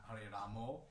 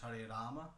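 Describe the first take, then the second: First: The last word ends with an 'oh' vowel. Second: The last word ends with an 'ah' vowel. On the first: The speaker calls it wrong. "not Hare Ramo" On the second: The speaker calls it right. "it's Hare Rama"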